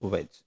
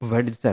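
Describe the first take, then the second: First: No d sound is pronounced in the word. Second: A d sound is pronounced in the word. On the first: The speaker calls it right. "വെജ് ആണ് correct pronunciation" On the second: The speaker calls it wrong. "അല്ല"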